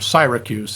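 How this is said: It is said with an English pronunciation.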